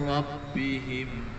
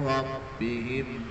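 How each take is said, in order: Both takes have the same delivery.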